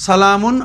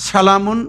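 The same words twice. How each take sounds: Both takes have the same delivery.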